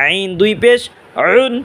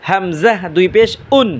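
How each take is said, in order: First: "আইন" and "উন" squeezed from mid-throat; "আইন" with a voiced pharyngeal onset; mid-throat ain. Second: "উন" with a clean catch from the base of the throat; "হামজাহ" recited clearly, then a plain glottal onset on "উন"; deep-throat hamza. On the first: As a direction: tighten the throat to begin "উন". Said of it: "আইন গলার মাঝখানে". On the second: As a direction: start "উন" with a glottal stop. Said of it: "হামজা উচ্চারণ হবে গলা শুরু হইতে". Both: Shown as a demonstration.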